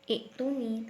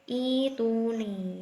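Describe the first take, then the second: First: The first vowel is short, not lengthened. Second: The first vowel is lengthened as a long vowel. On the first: The speaker calls it wrong. "bukan ituni" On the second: The speaker calls it right. "tapi ituni ya, ini kan badal, mat badal ya"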